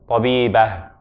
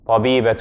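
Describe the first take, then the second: First: The word ends in a soft h sound. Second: The word ends in a t sound plus vowel. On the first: No vowel follows the final letter. "If there's no vowel on it, we pronounce it as an like an H" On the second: A vowel follows the final letter. "If we are putting a vowel after it, becomes a ta"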